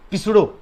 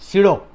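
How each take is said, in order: First: The word begins with a sounded 'p'. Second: The word begins with an 's' sound. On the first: The speaker calls it wrong. "Pronunciation करोगे तो पिसडो force" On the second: The speaker calls it right. "This is not पिसडो, this is the सीडो"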